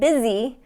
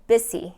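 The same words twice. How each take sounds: First: The middle consonant is a buzzing voiced Z. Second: The middle consonant is a hissing voiceless S. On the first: The speaker calls it right. "instead of busy" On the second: The speaker calls it wrong. "I'm hearing busy"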